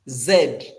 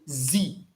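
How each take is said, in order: First: The letter is said the British way. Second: The letter is said the American way. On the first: "British English uh, they say Z" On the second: "American English they say Z"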